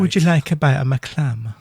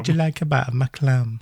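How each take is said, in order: First: Mock Scottish Hammond, raised and louder; Hammond's Edinburgh lilt offering clam; Scottish accent. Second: Lighter mock Scottish Hammond voice; Scottish accent. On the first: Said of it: "hence the accent". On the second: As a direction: repeat Hammond's line in a hint of Scots. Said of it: "that's what he says".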